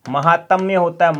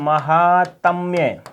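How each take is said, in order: First: Said in the usual way. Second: महात्म्य said slowly, each syllable drawn out clearly; slow spelled-out word. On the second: Shown as a demonstration. (महात्म्य को धीरे-धीरे अक्षर-अक्षर खींचकर बोलना) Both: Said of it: "महात्म्य कई बार आ चुका है ये शब्द".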